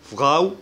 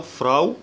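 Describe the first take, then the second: First: First فراو with a uvular r after the f; فراو, r said like Arabic غ; French R. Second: Second فراو with a front r after the f; فراو, r at the tongue tip, not throaty; English-style R. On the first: Teacher offering two dialect options, French R in فراو. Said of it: "ال R بالفرنساوي". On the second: Teacher offering the other dialect, front R in فراو. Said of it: "ال R بالإنجليزي". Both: Shown as a demonstration.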